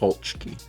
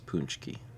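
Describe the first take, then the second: First: The first vowel sounds like O in bone. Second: The first vowel is not like O in bone. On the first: "where the the A is pronounced like the O in bone" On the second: "The most common way to pronounce it in English"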